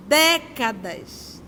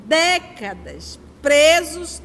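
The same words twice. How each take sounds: First: Décadas drawn out slowly. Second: Décadas presos slow and louder, stress on presos; a heavy, slow décadas presos. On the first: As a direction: let décadas hang, long and slow. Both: Shown as a demonstration.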